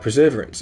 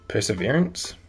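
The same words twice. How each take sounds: First: The stress is not on the third syllable. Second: The stress is on the third syllable. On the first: The speaker calls it wrong. "Still mispronouncing it" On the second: The speaker calls it right. "Accent on the third syllable"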